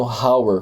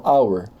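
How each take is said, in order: First: Hour mispronounced with a breath of H, "HOW-er"; sounded H. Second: Hour begun on the vowel, "OW-er"; hour said like "our"; silent H. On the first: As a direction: put an audible H on hour. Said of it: "Eu não tô falando hour". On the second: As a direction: drop the H from hour. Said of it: "Eu falo hour". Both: Shown as a demonstration.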